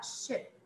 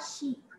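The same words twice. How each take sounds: First: The vowel sounds close to 'e'. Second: The vowel sounds like a pure 'ee'. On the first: The speaker calls it right. "Vai ser quase um E" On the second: The speaker calls it wrong. "eu não vou falar ship"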